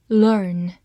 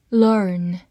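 No difference in how they are said.

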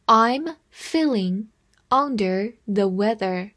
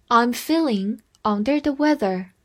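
First: Slow, phrase-by-phrase reading. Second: Said in the usual way. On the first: Shown as a demonstration. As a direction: read it slowly in two chunks. (慢读一遍) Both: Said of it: "慢读一遍".

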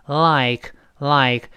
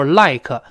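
First: "like" drawn out, clean forward L, light ending; slow "like", tongue tip touching behind the teeth; correct tongue-tip L. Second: "like" with a hooked-back L and an added "kə"; wrong back L. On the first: Teacher demonstrates the correct L, slow and clean. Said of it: "舌尖抬起来跟上牙膛粘一下". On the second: Teacher shows the mistake to avoid, heavy back L. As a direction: botch "like" as a heavy "lai-kə". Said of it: "反过来不要读". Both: Shown as a demonstration.

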